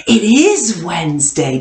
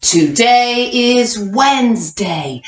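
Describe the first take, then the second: First: Said in the usual way. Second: Slow, even choral reading pace; slow read-along for kindergartners. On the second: Shown as a demonstration. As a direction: read it out slowly so the class can follow. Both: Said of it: "Read it with me".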